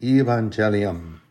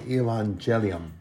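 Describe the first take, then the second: First: "Evangelium" repeated as ee-VAN-jeh-lee-um; lone repeated "Evangelium"; Latin word. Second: "evangelium" said as ih-VAN-zheh-lee-um; Latin word. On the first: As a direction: set "Evangelium" apart after a pause. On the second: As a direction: give the Latin "evangelium" plainly. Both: Shown as a demonstration. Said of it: "In Latin, it's called".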